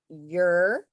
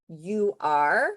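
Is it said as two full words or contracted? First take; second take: contracted; two words. First: The words are contracted into one syllable. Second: Both words are said fully and separately. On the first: "comes out sounding like you're" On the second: "instead of you are"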